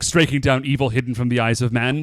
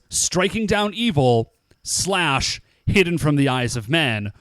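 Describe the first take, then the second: First: It runs on as one phrase without a break. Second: It is split into two phrases after evil.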